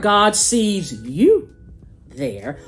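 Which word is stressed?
you. The stress falls on the word you.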